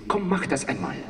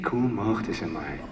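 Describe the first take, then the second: First: It is spoken in a Northern German accent. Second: It is spoken in a Viennese German accent. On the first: "the Hamburg, they say" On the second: "The Viennese say"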